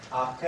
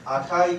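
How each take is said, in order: First: あけ with ai fused into a long "ee"; 赤い's final vowels melted into one long e in あけ; dialect vowel fusion. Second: Said in the usual way. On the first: Shown as a demonstration. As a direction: say あけ as "akee", Yamaguchi style. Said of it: "という発音なんですね". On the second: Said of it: "あけという発音なんですね".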